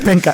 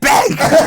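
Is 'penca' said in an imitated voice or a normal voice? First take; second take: normal; imitated. First: It is said in the speaker's own voice. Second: It is said in an imitated, put-on voice.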